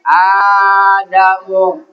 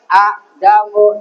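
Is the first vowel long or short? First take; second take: long; short. First: The first vowel is drawn out long. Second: The first vowel is short and clipped. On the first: The speaker calls it right. "bacanya adamu. jadi bacanya panjang" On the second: The speaker calls it wrong. "dibacanya a'damu tapi"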